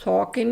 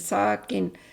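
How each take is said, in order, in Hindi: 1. s की आवाज़ भारी और मोटी है। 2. s की आवाज़ हल्की और पतली है।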